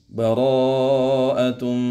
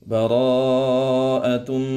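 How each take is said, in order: The two takes are said the same way.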